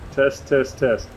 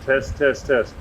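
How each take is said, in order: Both takes have the same delivery.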